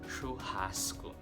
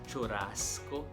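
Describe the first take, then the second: First: The double R is sounded like an H. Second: The double R is sounded like an R. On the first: The speaker calls it right. "Brazilian pronounce it as churrasco" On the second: The speaker calls it wrong. "It is not churrasco"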